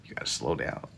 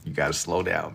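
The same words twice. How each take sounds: First: Breathy whisper, voice gone. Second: Said in the usual way. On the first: Shown as a demonstration. Streamer repeating the advice to chat, whispered.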